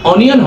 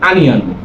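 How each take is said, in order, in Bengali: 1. প্রথম স্বরধ্বনিটি 'oh' এর মতো শোনায়। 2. প্রথম স্বরধ্বনিটি 'ah' এর মতো শোনায়। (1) "আসলে অনিয়ন হবে না" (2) "সেটার উচ্চারণ হবে আনিয়ন"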